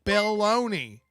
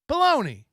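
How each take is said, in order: First: The name is said slowly as two words. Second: The name is said fast as one word.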